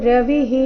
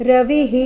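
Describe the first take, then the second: The two takes are said the same way.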